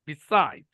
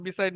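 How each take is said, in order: First: Beside with SIDE stretched and falling; light be, lean long on SIDE in beside; syllable stress. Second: Said in the usual way. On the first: Shown as a demonstration. Teacher showing stress to students, beside stressed on SIDE. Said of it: "অর্থাৎ বি, এটা stress". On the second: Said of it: "আমি বললাম".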